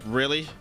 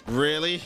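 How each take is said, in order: Both takes have the same delivery.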